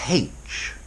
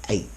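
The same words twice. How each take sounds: First: The letter name starts with an h sound. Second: The letter name starts with no h sound. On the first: The speaker is upper class. "if you're really posh, you should aspirate it" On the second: The speaker is an ordinary person. "normal people just say H"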